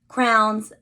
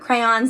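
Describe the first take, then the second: First: The word sounds like 'crowns'. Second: The word sounds like 'crayons'. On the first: This is the speaker's own way of saying it. "I definitely say it differently" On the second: This is how other people say it. "as other people may say"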